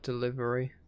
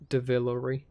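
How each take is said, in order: First: The word begins with 'del' as usual. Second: The word begins with 'dev', sounds swapped. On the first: The speaker calls it right. "when I want to say delivery" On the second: The speaker calls it wrong. "I need to stop saying Devillery"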